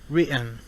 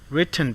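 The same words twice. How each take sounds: First: The t is stopped, followed by a strong n. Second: The t is fully released before the n.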